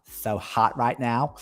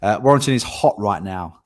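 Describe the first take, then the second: First: Slow, drawn-out mock-model delivery of the line; put-on catchphrase. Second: Said in the usual way. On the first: Estate agent hamming up a catchphrase to the stream, slow and drawn out. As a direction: stretch each word like a silly catchphrase. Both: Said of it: "Don't know why I've done that".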